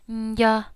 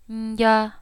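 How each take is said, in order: Both takes have the same delivery.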